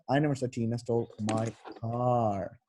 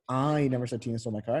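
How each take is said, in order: First: The stress is on "car". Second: The stress is on "I".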